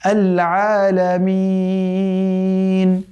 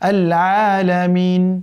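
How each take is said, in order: First: The vowel before the final n is long. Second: The vowel before the final n is short. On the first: "তিন আলিফ মাদের মধ্যে পড়ে গিয়েছে। এখন পড়তে হবে" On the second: "স্বাভাবিকভাবে কিন্তু এটা ছিল মূলত মাদ তাবিঈর মতো ... এতটুকুই"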